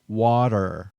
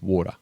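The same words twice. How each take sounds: First: The word is carefully over-articulated. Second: The word is said in a relaxed way. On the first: "over-pronouncing the word" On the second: "just water"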